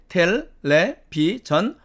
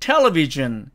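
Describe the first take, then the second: First: All syllables have equal pitch and length. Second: One syllable is stressed above the others. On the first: "모두가 똑같은 높이와 똑같은 길이로 발음을 함을 알 수가 있습니다. 이것이 외래어식 발음이고요" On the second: "이것은 외국어식 발음이 되는 거죠"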